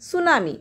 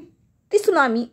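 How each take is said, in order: First: The word begins directly with an s sound. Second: The word begins with a t sound. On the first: The speaker calls it right. "टी is silent" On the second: The speaker calls it wrong. "वाचताना असं वाटेल की ती सुनामी असं म्हणाल तुम्ही"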